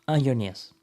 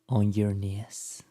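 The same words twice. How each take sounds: First: It is said quickly and rushed. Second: It is said slowly, breathy and intimate.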